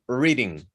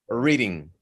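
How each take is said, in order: The two takes are said the same way.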